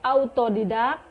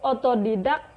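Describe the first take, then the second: First: The word begins with an au diphthong. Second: The word begins with a plain o vowel. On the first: The speaker calls it right. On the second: The speaker calls it wrong.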